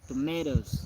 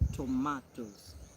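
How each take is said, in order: First: The word is said in an American accent. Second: The word is said in a British accent. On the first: "If it is American, uh, they say tomatoes" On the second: "If it is British, they say tomatoes"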